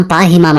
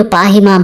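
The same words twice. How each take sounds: First: Said in the usual way. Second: Raised, higher pleading cry for mercy. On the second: A narrator's reading. Terrified warriors begging for mercy at the cave, pleading cry. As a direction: cry out for protection, a touch higher. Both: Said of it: "అంటూ గట్టిగా అరుస్తారు".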